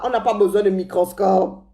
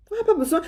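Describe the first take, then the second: First: Said in the usual way. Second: On n'a pas besoin with pas pitched high and falling; insistent repeat, higher. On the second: Shown as a demonstration. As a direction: push pas up for emphasis.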